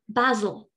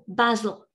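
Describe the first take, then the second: First: It is said in a British English accent. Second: The same.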